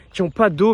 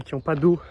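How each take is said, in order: First: "pas d'eau" said louder and higher, with "pas" punched; emphatic repeat. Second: Said in the usual way. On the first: Real, not acted. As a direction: hit "pas" hard on the repeat of "qui ont pas d'eau".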